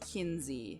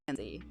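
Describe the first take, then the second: First: The first vowel sounds like the vowel in 'pin'. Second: The first vowel sounds like the vowel in 'pen'. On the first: This is how people from down south say it. "they kind of lean towards Kinsey" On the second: This is how people not from the south say it. "versus like Kenzie"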